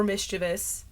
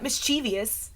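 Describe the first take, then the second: First: "mischievous" as MIS-chuh-vus; three-syllable mischievous. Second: "mischievous" as mis-CHEE-vee-us; four-syllable mischievous. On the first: Arguing from spelling, "mischievous" as MIS-chuh-vus. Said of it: "It's not mischievous". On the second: Correcting a common error, "mischievous" as mis-CHEE-vee-us. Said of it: "for mischievous". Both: Shown as a demonstration.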